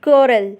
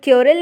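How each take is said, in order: First: "quarrel" with no y glide, "kwo-rel"; corrected quarrel. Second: "quarrel" with a y glide, "kyo-rel"; mispronounced quarrel. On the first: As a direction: say "quarrel" carefully as "KWO-rul". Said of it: "इसे पढ़ेंगे". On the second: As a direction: say "quarrel" wrongly as "KYO-rul". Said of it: "इसे quarrel नहीं पढ़ेंगे". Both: Shown as a demonstration.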